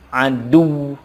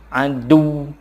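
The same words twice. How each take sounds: First: The ending is dropped, with a pressed final sound. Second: The ending is dropped, with a pressed final sound.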